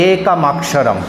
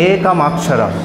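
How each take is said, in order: Both takes have the same delivery.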